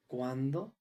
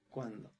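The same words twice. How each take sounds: First: ¿Cuándo? said as a question with a rising end; a real question, ¿Cuándo? rising up; asking. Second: ¿Cuándo? dropped quieter with a falling end; a stated echo, ¿Cuándo? falling away; flat echo. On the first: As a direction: ask ¿Cuándo? openly, voice lifting at the end. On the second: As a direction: say ¿Cuándo? low and settled, no lift. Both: Shown as a demonstration. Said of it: "question vs exclamation demo".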